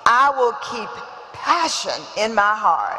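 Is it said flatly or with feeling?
with feeling. It is said with strong, heartfelt conviction.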